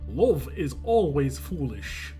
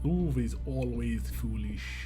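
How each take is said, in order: First: It is said in a Russian accent. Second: It is said in a Scottish accent. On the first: "That's my Russian accent" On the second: "And that is not the accent. That's Scottish"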